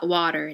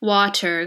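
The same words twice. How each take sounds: First: The T is a soft flap, American style. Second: The T is said as a clear T.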